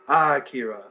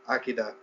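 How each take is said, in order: First: One syllable gets strong extra emphasis. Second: It is said plainly, without extra emphasis. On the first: "you're putting like emphasis" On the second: "instead of just saying Akira"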